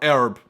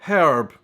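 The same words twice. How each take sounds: First: It is said in an American accent. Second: It is said in a British accent.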